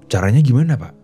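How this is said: It is said in a harsh, aggressive tone.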